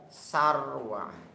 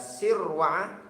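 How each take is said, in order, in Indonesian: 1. Suku kata pertama memakai vokal a. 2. Suku kata pertama memakai vokal i. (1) "Kalau fathah berarti sar" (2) "kalau kasroh sir"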